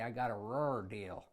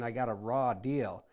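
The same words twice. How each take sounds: First: Raw is said with an added R at the end. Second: Raw is said plainly, with no added R.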